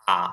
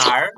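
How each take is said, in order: First: "আ" left open with the R silent; R dropped. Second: "আর" closing on a pronounced R; R sounded. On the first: Teacher showing the other option, "আ" without an R. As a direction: say "আ" as a bare "ah", no R. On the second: Teacher showing one of two options, "আর" with its R. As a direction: say "আর" as "aar", with the R heard. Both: Shown as a demonstration. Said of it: "হচ্ছে আর বা আ".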